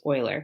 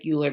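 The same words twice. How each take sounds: First: The name is pronounced differently from its spelling. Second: The name is pronounced the way it is spelled. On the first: The speaker calls it right. "It's Euler" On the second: The speaker calls it wrong. "I know it looks like Euler, but that's not how you say it"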